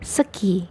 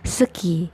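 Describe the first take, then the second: Both takes have the same delivery.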